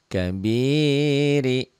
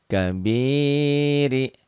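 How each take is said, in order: No difference in how they are said.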